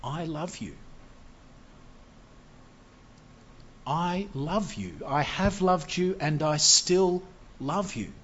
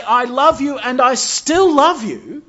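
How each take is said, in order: First: Soft, slow, tender declaration of love; softly tender, said slowly; God's tender love. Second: Loud, high, slow cry of love, leaning on still; booming and slow, higher pitched; emphatic divine love. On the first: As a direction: hush it, like a father reassuring. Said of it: "But he says". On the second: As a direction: proclaim it with full force. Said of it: "How can God say". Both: Acted.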